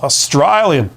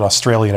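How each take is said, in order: First: Put-on Australian accent, broad vowel in "Australian"; playful imitation of an Australian accent. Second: Said in the usual way. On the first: Shown as a demonstration. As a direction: say "Australian" like a mock Aussie. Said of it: "with an Australian accent".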